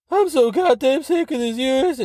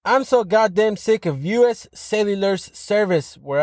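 First: Much higher put-on angry voice; angry redditor voice. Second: Said in the usual way. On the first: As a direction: ham up an outraged complainer. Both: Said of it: "I'm not gonna do that voice".

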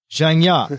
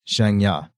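First: Repeated louder on demand; louder, please. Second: Said in the usual way. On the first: Retold or imitated. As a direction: say Zhang Ya again, louder and clearer. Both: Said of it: "Louder, please".

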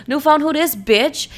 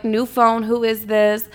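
First: Sassy. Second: Said in the usual way. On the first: Retold or imitated. Reworded sassy reply to the texter.

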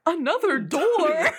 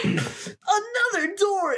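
First: Slow, puzzled mock actor line; hammed-up dumb question, drawn out; bad acting. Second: Very high, slow hammy shout; bad acting. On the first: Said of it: "he's saying it like". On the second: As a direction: overact the discovery, drawn out. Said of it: "getting into character".

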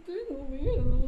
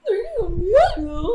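First: Slow cartoon-dog whimper, not pitched up; lightly voiced scared Scooby; drawn-out mock Scooby fear; Scooby-Doo. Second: Slow, higher, louder cartoon-dog whimper; scared Scooby through a laugh; goofy scared Scooby-Doo. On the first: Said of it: "Me siento como Shaggy". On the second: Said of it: "hablar como Scooby-Doo".

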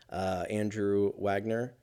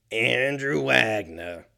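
First: Said in the usual way. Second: Slow, lightly put-on gruff Andrew Wagner; Robert Loggia. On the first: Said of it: "I sounded like Robert Loggia". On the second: Shown as a demonstration. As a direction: say the name slow like a tough-guy actor. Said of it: "I sounded like fucking Robert Loggia".

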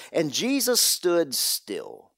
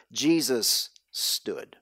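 First: 1 slow emphasis. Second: 1 slower, quieter. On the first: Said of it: "the original Greek here, it says". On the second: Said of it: "Or even better". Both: Real, not acted.

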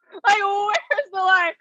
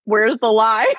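First: High, drawn-out laughing cry; laughing wail. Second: Pointed question, rising at the end; pointed retort. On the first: Repeating her retort to the cyberbullying charge, laughing wail. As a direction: wail it slowly through laughter. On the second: Answering an accusation of cyberbullying, pointed retort. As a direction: toss it back as a challenge. First take of her retort. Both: Retold or imitated.

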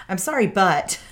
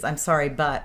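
First: Higher, louder mock-defensive apology; hammed-up defensive non-apology. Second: Said in the usual way. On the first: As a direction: apologize as a lead-in to arguing back, pitched up. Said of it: "instantly get defensive and be like". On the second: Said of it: "that's my classic move that I did".

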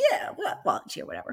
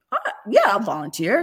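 First: Low, soft mock Boston accent. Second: Lightly voiced reluctant husband, high hesitant start; husband volunteering. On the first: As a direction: imitate a tough guy's offhand Boston mumble. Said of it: "in his Boston accent". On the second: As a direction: imitate him half-heartedly offering to volunteer. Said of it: "Joe's like, he goes".

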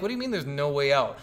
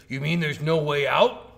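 First: Retold disbelieving retort, falling at the end. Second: Imitating an indignant, incredulous question, rising loudly on "out"; mock outrage, drawn out with a questioning lift; pissed off. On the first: Player answering the game character back, mildly incredulous retort. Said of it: "And I'm like". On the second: Game character challenging the player on the exit, pissed off. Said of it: "and then he's pissed at you".

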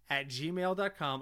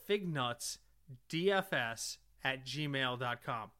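First: Spelled out slowly. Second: Each letter spelled out slowly; slow, careful spelling. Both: Real, not acted.

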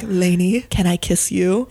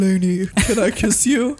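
First: Lightly voiced leading man; romantic male voice. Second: Hammed-up seductive lover; deep romantic voice. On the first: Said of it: "I'm really playing this out with the voices". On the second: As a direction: ham up the smoldering ask. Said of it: "I feel like I'm killing it over here".

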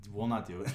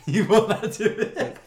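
First: Said in the usual way. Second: Laughing slowly, higher and louder. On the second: Real, not acted. Laughing while repeating it to friends, louder and higher.

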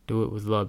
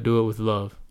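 First: A gentle, heartfelt echo of the advice; softer, tender repeat. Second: Said in the usual way. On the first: Real, not acted. To his listeners, repeating the advice, softly tender. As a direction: say it again more gently and softly.

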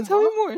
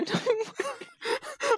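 First: Said in the usual way. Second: Mock wailing. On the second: Mock wail, repeat of 179.

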